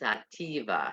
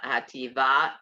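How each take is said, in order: First: The stress is on the second-to-last syllable. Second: The stress is on the last syllable. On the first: The speaker calls it right. "the accent on the next to the last syllable" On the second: The speaker calls it wrong. "It's not hativa"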